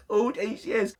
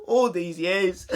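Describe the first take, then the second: First: Giggling through the dramatic line; laughing mock betrayal. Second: Mock dramatic betrayal. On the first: Vlogger laughing at his own mock betrayal of his parents. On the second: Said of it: "mock dramatic repeat of accusation".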